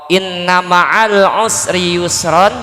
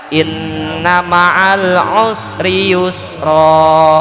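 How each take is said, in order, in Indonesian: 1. Kata terakhir berakhir dengan bunyi n. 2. Kata terakhir berakhir dengan vokal panjang.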